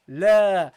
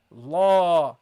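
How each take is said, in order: First: La held long and louder; correct long la. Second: La clipped short and odd; the mistaken short la; wrong short la. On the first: Teacher showing the correct la to students. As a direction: prolong la properly. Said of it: "No, la". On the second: Teacher showing the wrong la to students. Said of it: "Don't say here". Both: Shown as a demonstration.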